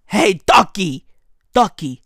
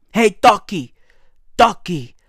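The two takes are said the same way.

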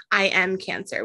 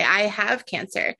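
First: "I am cancer" with weight on "I am"; wrong phrasing. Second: "I have cancer" said slowly, leaning on "have"; right phrasing. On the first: Host correcting the phrasing, stress on "I am". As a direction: mark "I am cancer" as the phrasing we avoid. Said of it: "We don't say". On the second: Host offering the better phrasing, slow and deliberate. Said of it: "We say". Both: Shown as a demonstration.

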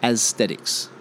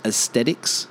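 First: Aesthetics said AS-stet-icks, S clearly in; carefully. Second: Aesthetics said uh-TET-icks, no S; without S. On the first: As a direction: say aesthetics slowly with the S. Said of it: "say it now in an isolated manner". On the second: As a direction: stumble on aesthetics, dropping the S. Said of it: "But words like". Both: Shown as a demonstration.

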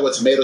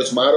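First: "tomato" as the first of two contrasting pronunciations. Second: "tomato" as the second, contrasting pronunciation; alternate tomato pronunciation. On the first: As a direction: say "tomato" one of the two accepted ways. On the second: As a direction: say "tomato" with the other accent's vowel. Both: Shown as a demonstration. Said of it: "this is how you say it".

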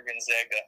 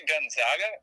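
First: "Gonzaga" with a short A in the middle, gon-ZAG-uh; GonZAGga pronunciation. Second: "Gonzaga" with a broad AH in the middle, gon-ZAH-guh; GonZAHga pronunciation. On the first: Co-host offering the other way to say it, "Gonzaga" as gon-ZAG-uh. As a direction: say "Gonzaga" with its second vowel as in "cat". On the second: Co-host offering one way to say it, "Gonzaga" as gon-ZAH-guh. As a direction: say "Gonzaga" with its second vowel as in "father". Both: Shown as a demonstration. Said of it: "Do you say Gonzaga or Gonzaga".

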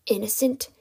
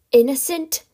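First: Contained, questioning disbelief; incredulous echo. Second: Louder, higher indignant question; outraged echo. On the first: Kidnapper echoes captive's accusation, restrained disbelief. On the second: Kidnapper explodes at captive's accusation, loud indignation. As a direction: burst out in raised disbelief. Villain repeats word, now outraged. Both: Acted.

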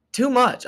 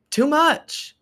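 First: "Too much" still pitched very high, a bit less squeaky; mock squeal again. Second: "Too much" squeaked very high in a put-on voice; mock squeal. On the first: Mock reaction repeated. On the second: Mock reaction to close talker.

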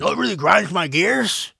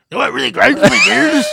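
First: Lightly voiced, higher, louder catchphrase; catchphrase impression. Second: High, loud, hammed-up rant opener; shouted catchphrase. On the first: Quoting a friend's segment line in a mild imitation. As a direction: toss out the famous rant opener. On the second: Redoing a friend's segment line as a big mock shout. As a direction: bellow it like a TV rant host. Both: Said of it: "That's Will's segment".

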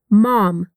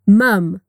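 First: American English "Mom." with an open ah vowel, mahm. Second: British English "mum." with a short uh vowel, mum. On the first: Teacher contrasting American mom with British mum. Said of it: "repetir de novo no inglês americano". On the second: Teacher contrasting British mum with American mom. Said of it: "E agora no britânico". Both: Shown as a demonstration.

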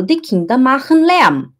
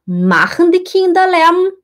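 First: Falling tune on "Lärm"; statement tune. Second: "Kinder" rising, pitched high; question tune. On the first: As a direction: state it, ending down. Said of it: "eu falo". (afirmação com entonação descendente) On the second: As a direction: ask it with a lifted question tune. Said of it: "Aí eu vou perguntar". (pergunta com entonação subindo) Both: Shown as a demonstration.

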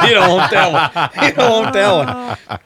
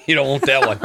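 First: Higher and louder through laughter; laughing harder each time. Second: Laughing. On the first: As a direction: crack up while repeating it. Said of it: "repeated, rising laughter". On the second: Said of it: "repeated with laughter". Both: Real, not acted.

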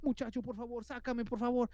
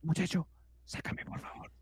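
First: Higher, stressed begging; desperate plea. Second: Hushed, breath-only begging; whispered plea. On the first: Trapped man begging the boy to free him, desperately. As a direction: plead insistently, getting frantic. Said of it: "Muy desesperado". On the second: Unseen man begging the boy to free him, whispering. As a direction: beg under your breath, as if hiding. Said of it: "así me hizo". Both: Retold or imitated.

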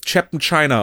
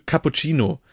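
First: "Chapman China" said in place of cappuccino; deliberately mangle cappuccino as "Chapman China"; jokey mispronunciation. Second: Said in the usual way. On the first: Shown as a demonstration. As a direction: turn cappuccino into English-sounding "Chapman China". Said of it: "Ich liebe das ja". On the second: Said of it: "das Chapman China auszusprechen".

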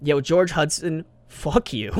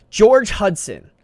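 First: Yo, George Hudson called out slowly, jokingly; mock call-out. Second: George Hudson said slow and loud, higher, falling on George; dramatic reveal. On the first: Teasing the inventor, mock call-out. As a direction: call him out in playful mock anger. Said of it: "I'm just kidding". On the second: Shown as a demonstration. Answering the trivia question, slow loud reveal. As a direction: announce George Hudson like a game-show answer. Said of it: "who invented daylight savings?".

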